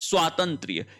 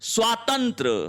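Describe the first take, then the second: First: The word ends with a 'y' sound. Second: The word ends without a 'y' sound. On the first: The speaker calls it right. "यह शब्द सही है" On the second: The speaker calls it wrong. "ये भी यहां गलत लिखा है"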